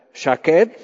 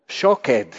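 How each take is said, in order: First: "shaked" said SHA-ked, open a vowel. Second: "shoked" said SHO-ked, rounded o vowel. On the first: Preacher teaching the Hebrew word for almond, careful "shaked". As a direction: say "shaked" with a clear a sound. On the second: Preacher showing the Hebrew word for hasten, careful "shoked". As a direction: say "shoked" with an o, not an a. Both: Shown as a demonstration. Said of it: "Cambiar una vocal nada más".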